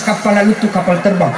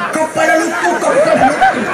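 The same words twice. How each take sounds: First: Said in the usual way. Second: Put-on excited kids' shout. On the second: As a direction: call out at the plane overhead like a thrilled village kid. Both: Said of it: "Bahasa Bugis".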